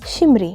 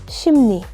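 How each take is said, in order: First: The second syllable starts with an r sound. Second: The second syllable starts with an n sound. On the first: The speaker calls it wrong. "you would pronounce it as shimri, but it's incorrect" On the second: The speaker calls it right. "It's pronounced as shimni"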